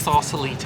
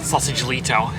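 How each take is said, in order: First: The first part sounds like sausa, not sausage. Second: The first part sounds like the word sausage. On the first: The speaker calls it right. "I know my stuff, mate" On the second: The speaker calls it wrong. "[name] calls it like Sausage-lito"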